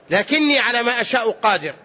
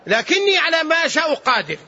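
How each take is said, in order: First: Said in the usual way. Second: Higher, ringing declaration of power; emphatic declaration. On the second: Retold or imitated. God answering His servant, emphatic declaration. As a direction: declare it high and sustained. God's reply declared, then repeated.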